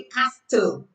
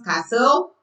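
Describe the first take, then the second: First: Castle said wrongly, with a hard T; castle with T pronounced. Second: Castle said correctly as cassel; castle with silent T. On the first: Teacher showing learners what we don't say, T sounded in castle. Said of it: "we don't say castle". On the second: Teacher correcting for learners, no T in castle. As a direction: drop the T in castle. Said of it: "You don't pronounce the T". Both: Shown as a demonstration.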